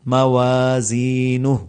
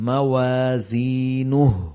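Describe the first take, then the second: No difference in how they are said.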